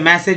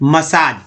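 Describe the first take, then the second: First: It sounds like 'message', short vowels. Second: It sounds like 'masaaj', long second vowel. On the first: The speaker calls it wrong. "मैसेज जो कि गलत है" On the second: The speaker calls it right. "दूसरा एक का उच्चारण जो है आ के रूप में"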